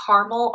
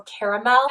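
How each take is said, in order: First: Caramel said as "CAR-mel"; two-syllable caramel. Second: Caramel said as "CARE-uh-mel"; three-syllable caramel. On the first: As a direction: drop the middle vowel of caramel: "CAR-mel". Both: Shown as a demonstration. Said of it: "how people say caramel or caramel".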